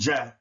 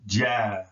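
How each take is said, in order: First: The vowel is held only briefly. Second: The vowel is held for a longer time.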